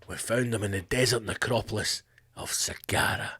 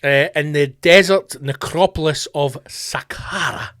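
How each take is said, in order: First: Dramatic Hollywood trailer voice. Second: Said in the usual way. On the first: Shown as a demonstration. Archaeologist answering a reporter, in a low, soft trailer voice. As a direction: give it that epic movie-trailer hush. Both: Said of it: "It just sounds Hollywood".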